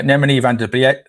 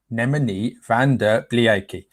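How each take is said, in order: First: Said in the usual way. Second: Name sounded out slowly; slow, careful. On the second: Real, not acted. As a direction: take the unfamiliar name slowly, piece by piece. Slow second try at name.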